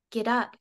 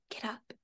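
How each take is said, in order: First: Slightly raised, firm narrated command; understated louder prompt; louder urging. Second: Hushed, much softer command; whispered urging. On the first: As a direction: lift the voice a little to urge someone up. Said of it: "Kell said louder". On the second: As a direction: drop to a near-whisper to urge someone up. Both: A narrator's reading.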